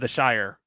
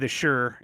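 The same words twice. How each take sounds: First: It is said the way the British say it. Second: It is said the way New Englanders say it. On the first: "instead of the shire" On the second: "in New England, they do say the shire"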